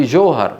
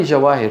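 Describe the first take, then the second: First: جوهر said johar, with a long o; correct name pronunciation. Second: جواهر said jawaher, with w and long aa; wrong reading rejected. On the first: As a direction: say جوهر in two syllables, jo-har. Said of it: "في جوهر". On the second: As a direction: read جواهر as spelt, ja-waa-her. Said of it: "ما في جواهر". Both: Shown as a demonstration.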